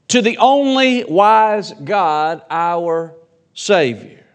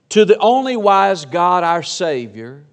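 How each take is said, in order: First: Slow, with only drawn out and leaned on; stress on only. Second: Said in the usual way. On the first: Shown as a demonstration. Pastor to church, weighting only slowly. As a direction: lean hard into only, then let Savior fall. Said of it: "The emphasis in that passage there is he's the only". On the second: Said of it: "pays attention to these".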